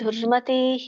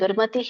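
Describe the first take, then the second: First: The vowel in 'ti' is drawn out long. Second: The vowel in 'ti' is kept short. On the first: The speaker calls it wrong. "ತೀ ನಾನು ಎಳೆದೆ, ಎಳಿಬಾರ್ದು" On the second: The speaker calls it right. "ದುರ್ಮತಿಃ ಅಲ್ಲಿ ಎಳಿಬೇಡಿ"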